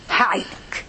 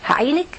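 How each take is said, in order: First: Hushed promise. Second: Said in the usual way. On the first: Acted. God promises help to the worshipper, hushed. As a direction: promise help almost in a whisper.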